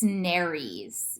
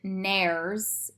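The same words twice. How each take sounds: First: The e in the ending is pronounced. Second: The e in the ending is silent. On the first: The speaker calls it right. "You're pronouncing the E" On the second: The speaker calls it wrong. "this isn't nares"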